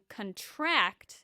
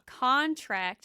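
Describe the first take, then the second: First: The stress is on the last syllable. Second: The stress is on the first syllable. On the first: It is a verb. "contract is the verb" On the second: It is a noun. "Contract is a noun"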